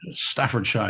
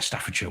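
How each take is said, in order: First: It is said the way an American would. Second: It is said the way a local Briton would. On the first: "you'd say" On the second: "we would say"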